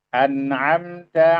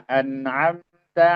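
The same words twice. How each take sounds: The two takes are said the same way.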